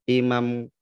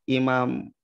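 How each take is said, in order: Both takes have the same delivery.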